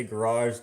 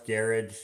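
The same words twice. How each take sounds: First: "garage" as "guh-RAHZH"; end-stressed pronunciation. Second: "garage" as "GARE-idge"; front-stressed pronunciation. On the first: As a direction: stress the second syllable of "garage". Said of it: "you can say garage, garage". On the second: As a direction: stress the first syllable of "garage". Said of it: "garage would be a weird one to hear". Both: Shown as a demonstration.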